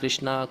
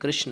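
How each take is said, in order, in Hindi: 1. नाम का अंत लंबे 'aa' स्वर से होता है। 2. नाम का अंत बिना किसी अंतिम स्वर के होता है। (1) "बाहर विदेश के जो भक्त होते हैं वो नहीं बोल पाते" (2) "ओरिजिनली कृष्ण है"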